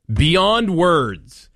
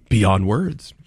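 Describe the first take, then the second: First: Sarcastic, pitched high and overdone; sarcastic, exaggerated. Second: Sarcastic, flat and dry; deadpan sarcastic. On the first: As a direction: play up fake amazement, sarcastically. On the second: Acted. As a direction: say it dry, no excitement. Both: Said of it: "My sarcasm is deep".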